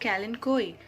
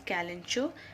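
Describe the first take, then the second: First: The word ends with a 'koy' sound. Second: The word ends with a 'cho' sound. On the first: This is how American speakers say it. "American pronounce it as Kalenkoi" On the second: This is how British speakers say it. "British people pronounce it as Kalencho"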